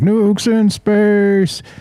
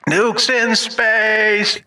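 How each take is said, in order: First: The voice sounds natural, with no added effect. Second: The voice is altered by a voice-changer effect.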